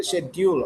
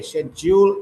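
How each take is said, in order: First: "schedule" said shed-yool, with D plus Y; "schedule" with a d-y glide in the middle; local dyool pronunciation. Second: "schedule" said shed-jool, with a clear J; "schedule" with a j in the middle, no d-y glide; British jool pronunciation. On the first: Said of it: "we often say schedule". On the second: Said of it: "they say schedule". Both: Shown as a demonstration.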